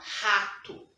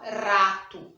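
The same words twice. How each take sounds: First: The r is a strong throaty sound. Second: The r is a quick tongue tap. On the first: The speaker calls it right. "a gente fala rato" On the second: The speaker calls it wrong. "A gente não fala rato"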